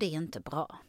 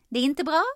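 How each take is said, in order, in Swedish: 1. Tonhöjden sjunker i slutet av meningen. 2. Tonhöjden stiger i slutet av meningen. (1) "Att man går ner och verkligen talar tydligt" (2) "att inte gå upp i tonläge i slutet på alla meningar"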